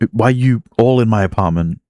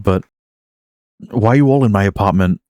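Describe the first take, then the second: First: The word all is strongly stressed. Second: The word all gets no special stress.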